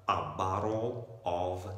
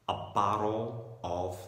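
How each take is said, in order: The two takes are said the same way.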